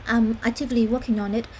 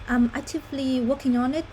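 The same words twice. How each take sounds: The two takes are said the same way.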